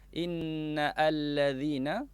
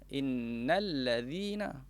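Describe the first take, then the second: First: The second word starts with a separate vowel onset. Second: The two words run together without a break. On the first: The speaker calls it wrong. "jadi salah kalau kita baca inna allazina" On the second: The speaker calls it right. "yang mana bacaan bersambung"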